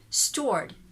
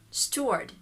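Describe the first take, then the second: First: The R sound after the vowel is pronounced. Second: The R sound after the vowel is pronounced.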